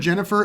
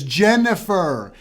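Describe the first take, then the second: First: The name is said at ordinary speed and volume. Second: The name is said more slowly and more loudly. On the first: The question is asked for the first time. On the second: The listener did not recognize the name.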